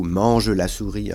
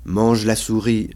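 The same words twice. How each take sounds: First: "mange la souris" in five syllables, e sounded in "mange"; formal sounded schwa at the end of "mange"; more careful pronunciation. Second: "mange la souris" in four syllables, silent e in "mange"; "mange" as one syllable, straight into "la"; everyday pronunciation. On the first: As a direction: say "mange" as man-je before "la". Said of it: "de façon un peu plus tenue". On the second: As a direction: drop the e at the end of "mange". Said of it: "parle couramment". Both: Shown as a demonstration.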